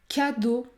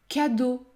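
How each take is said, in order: No difference in how they are said.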